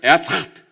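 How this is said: It is said with a gurgling, throaty sound. The speaker calls it right. "가래 끓는 소리가 나요. 이렇게 나와야 되는데"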